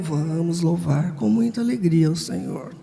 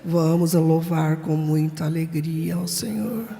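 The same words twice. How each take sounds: First: It is said with lively, joyful energy. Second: It is said flatly, without energy.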